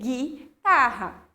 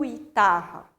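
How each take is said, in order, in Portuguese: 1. O primeiro som é um g forte, simples. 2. Depois do primeiro g vem um som de u.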